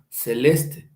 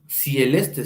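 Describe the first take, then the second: First: "celeste" with plain e, drawn out slowly; correct form without diphthong. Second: "cieleste" with ie in the first syllable; wrong form with diphthong. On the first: Teacher gives students the real form, slow "celeste" with plain e. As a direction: say "celeste" slowly, no i-glide after c. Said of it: "No decimos cieleste, sino celeste". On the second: Teacher shows students the form not used, "cieleste" with ie. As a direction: say "cieleste", gliding cie- at the start. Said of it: "No decimos cieleste". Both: Shown as a demonstration.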